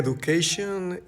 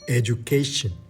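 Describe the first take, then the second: First: The 'du' is said as a plain 'doo'. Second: The 'du' is said as a 'joo' sound. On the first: The speaker calls it wrong. "Dijiste education y graduate. No está mal" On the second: The speaker calls it right. "cómo suena más natural ... vas a decir Y"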